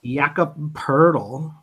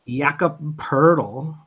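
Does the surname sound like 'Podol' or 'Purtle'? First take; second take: Purtle; Purtle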